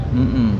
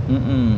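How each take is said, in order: No difference in how they are said.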